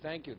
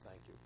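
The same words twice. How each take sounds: First: It is said loudly enough to be heard. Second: It is said quietly, barely audible. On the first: The speaker is truly thankful. The speaker calls it right. "that the man could hear it" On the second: The gratitude is not truly felt or internalized. The speaker calls it wrong. "In that undertone, the person could barely hear him say thank you"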